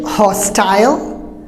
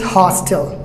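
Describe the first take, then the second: First: It has a British accent with full final syllable. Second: It has an American accent with shortened final syllable. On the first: "British hostile" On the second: "Americans hostile"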